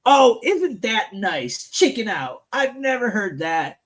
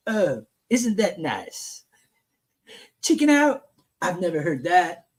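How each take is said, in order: First: Said in the usual way. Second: Donald Trump. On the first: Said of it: "All right, I'm gonna do Trump's voice". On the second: Acted. Host rereads the president's reply, lightly imitating him. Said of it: "I'm gonna do Trump's voice".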